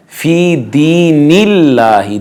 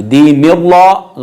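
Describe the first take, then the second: First: दीनिल्लाहि slowly, thin "laah" with clear a; light lam. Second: दीनिल्लाह with thick, rounded "law"; wrong heavy lam. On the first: Teacher modelling Allah's name read thinly, light lam. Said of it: "लफ्ज़ अल्लाह बारीक पढ़ा जाएगा". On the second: Teacher showing the error, wrong heavy lam. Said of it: "गलत हो जाएगा". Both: Shown as a demonstration.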